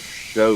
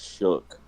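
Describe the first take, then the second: First: The name ends with a long vowel. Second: The name ends with a K sound. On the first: The speaker calls it right. "That's pronounced show in fucking English" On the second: The speaker calls it wrong. "there's no way you pronounce S H O U G H as shook"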